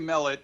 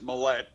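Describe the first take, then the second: First: The stress is on the first syllable. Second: The stress is on the second syllable. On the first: "I say Mellet. ... I usually accent the first syllable" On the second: "My older brother says Millet"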